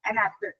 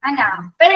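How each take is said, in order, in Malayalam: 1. ഇത് ഫ്ലാറ്റ് ആയിട്ടാണ് പറഞ്ഞിരിക്കുന്നത്, ഊർജം കുറവാണ്. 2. ഇത് എക്സ്പ്രസീവ് ആയിട്ടാണ് പറഞ്ഞിരിക്കുന്നത്, ലൈവ്ലി ആയ ഊർജത്തോടെ. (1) "ആൻ ആപ്പിൾ എന്ന് പറഞ്ഞാൽ കുഞ്ഞ് ശ്രദ്ധിക്കില്ല" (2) "വളരെ എക്സ്പ്രസീവ് ആയിട്ട് പറയാനായിട്ട്"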